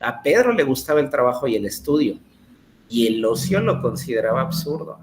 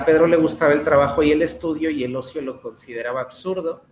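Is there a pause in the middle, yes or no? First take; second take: yes; no. First: It has a pause before the second part. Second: It is read straight through without a pause.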